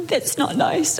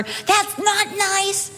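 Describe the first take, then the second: First: Said in the usual way. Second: Slow, higher prim complaint; prim sing-song. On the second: Retold or imitated. Pastor's wife mocking her own prim complaint, slow sing-song. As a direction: drag it out primly. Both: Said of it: "I was not going".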